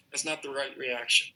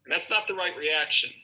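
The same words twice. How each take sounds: First: Said in the usual way. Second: Not pushed up and louder; firm teacher stress on not. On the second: Shown as a demonstration. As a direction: lean hard on the word not to correct.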